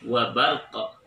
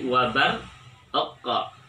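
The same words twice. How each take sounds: First: The phrase is said quickly, run together. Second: The phrase is said slowly, with an echoing stop. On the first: "kalau kita percepat" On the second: "harus ada qalqalah yang mengikuti"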